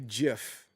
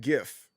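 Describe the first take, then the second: First: The word begins with a J sound. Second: The word begins with a hard G sound. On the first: The speaker calls it wrong. "they would just put a J in front of it" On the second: The speaker calls it right. "I always said GIF"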